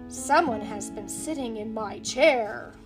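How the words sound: It is said in a great big voice.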